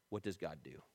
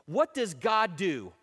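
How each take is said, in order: First: Soft, low question; gentle reminder. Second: Loud, slow preacher's question; rallying challenge. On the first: Fellow leader to a discouraged friend, quietly reminding. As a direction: drop right down to a quiet prompt. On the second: Man challenging his own discouragement, loud and rallying. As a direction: hit each word slowly and forcefully. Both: Acted.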